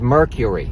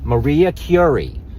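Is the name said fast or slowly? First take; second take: fast; slowly. First: The name is said fast and run together. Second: The name is said slowly and fully.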